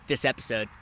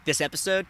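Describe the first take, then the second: First: "this episode." lower, softer, falling at the end; his way of saying it. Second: "this episode." with a rise on "episode"; his way of saying it. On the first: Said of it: "I like the way I say". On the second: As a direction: lift "episode" up at the end. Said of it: "the way my voice sounds saying". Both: Shown as a demonstration.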